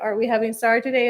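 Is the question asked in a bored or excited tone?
bored. It is asked in a reluctant, bored tone.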